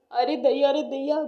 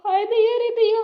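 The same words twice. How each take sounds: First: Scolding exclamation in an even pitch; exasperated husband. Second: High, loud cry of dismay; dismayed wail. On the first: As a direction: chide her in exasperation. Husband scolds his bald wife. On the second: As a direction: wail in theatrical horror. Finds herself bald, laments. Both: Acted.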